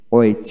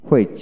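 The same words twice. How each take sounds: First: হুইচ said as "witch", no h; হুইচ with a plain w onset; British w pronunciation. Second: হুইচ with an audible h before the w; হুইচ starting on breathed hw; American h pronunciation. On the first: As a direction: drop the h in হুইচ. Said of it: "British উচ্চারণে". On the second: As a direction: sound the h in হুইচ. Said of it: "আমেরিকানে হ". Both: Shown as a demonstration.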